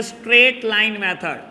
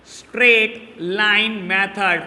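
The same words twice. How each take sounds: First: Said in the usual way. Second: "straight line method" slowly, each word set apart; dictation. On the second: Shown as a demonstration. Teacher repeating the method's name to students, slow dictation.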